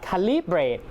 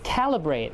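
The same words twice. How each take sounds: First: The stress is not on the first syllable. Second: The stress is on the first syllable. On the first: The speaker calls it wrong. "it's not calibrate" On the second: The speaker calls it right. "but it's calibrate"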